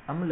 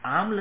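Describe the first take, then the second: First: अम्ल said with a short "अ", as "अम्ल"; the right way, अम्ल with a short first vowel; correct pronunciation. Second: आम्ल said with a long "आ", as "आम्ल"; the wrong way, आम्ल with a long first vowel; wrong pronunciation. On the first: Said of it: "अम्ल होता है". (अम्ल का शुद्ध उच्चारण, छोटा "अ") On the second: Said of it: "आम्ल नहीं होता है". (आम्ल का गलत उच्चारण, लंबा "आ") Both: Shown as a demonstration.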